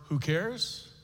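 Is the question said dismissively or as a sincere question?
sincere. It is said as a sincere, genuine question. It asks which people actually care. "we've been asking that question the second way"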